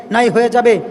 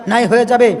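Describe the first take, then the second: No difference in how they are said.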